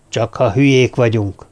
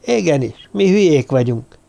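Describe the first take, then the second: First: Said in the usual way. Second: Mildly squeaky, narrated protest; squealed. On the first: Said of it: "mondta Törpapa". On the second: A narrator's reading. Morgan contradicting Törpapa about being fools, squealing. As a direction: pipe it up in lightly acted protest. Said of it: "sipította Morgan".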